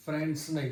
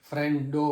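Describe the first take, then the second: First: Said in the usual way. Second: ફ્રેન્ડો said with Gujarati -o ending; Gujarati plural. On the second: Shown as a demonstration. Husband demonstrating Gujarati plural ફ્રેન્ડો.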